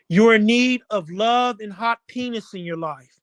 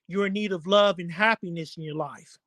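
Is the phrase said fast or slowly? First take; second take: slowly; fast. First: The phrase is said slowly, words split apart. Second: The phrase is said fast, words run together.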